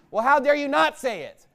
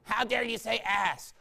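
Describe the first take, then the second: First: Louder, higher preaching comeback; indignant retort. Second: Put-on scandalized voice; mock offended objector. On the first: Real, not acted. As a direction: throw the accusation back forcefully. Preacher throws the objection back. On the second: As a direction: mimic a prim complaint.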